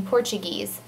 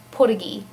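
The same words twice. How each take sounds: First: Said in the usual way. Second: Portuguese as "Portagee", r dropped, quick; Pidgin Portuguese. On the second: Shown as a demonstration. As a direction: say Portuguese the Pidgin way, "POR-ta-gee". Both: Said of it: "or as we would say in Pidgin".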